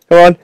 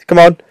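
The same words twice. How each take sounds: The two takes are said the same way.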